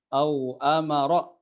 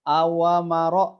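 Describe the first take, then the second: First: The w sound has no vowel after it. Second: The w sound is followed by a vowel. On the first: The speaker calls it right. "Au-nya itu sukun" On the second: The speaker calls it wrong. "tapi dibaca awamaro"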